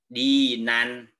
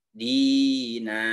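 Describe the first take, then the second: First: The word ends with a short vowel and n. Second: The word ends with a long drawn-out vowel. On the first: The speaker calls it wrong. "tidak dibaca nan" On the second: The speaker calls it right. "Jadi panjangnya enam harkat"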